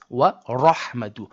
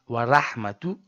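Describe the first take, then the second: First: The R is heavy, with a full mouth. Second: The R is light and flat, mouth not full. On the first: The speaker calls it right. "No, it's wa rahmatu" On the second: The speaker calls it wrong. "do not say wa ra, wa ra, wa rahmatu"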